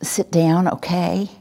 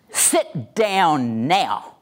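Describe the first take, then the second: First: Tentative command ending in a question; passive. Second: Drawn-out, very slow command; aggressive. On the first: Trainer demonstrating a passive order to the class, tentative. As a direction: rise on "okay" as if asking permission. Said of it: "And a passive voice is". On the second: Trainer demonstrating aggressive command with "or else" behind it, threatening. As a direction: stretch each word into a threat. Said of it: "An aggressive voice says". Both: Shown as a demonstration.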